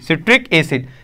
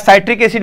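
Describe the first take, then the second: First: The first vowel is short, like 'sit'. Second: The first vowel is long, like 'sigh'. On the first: "सिट्रिक acid होता है" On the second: "साइट्रिक acid भी पढ़ते हैं कुछ लोग"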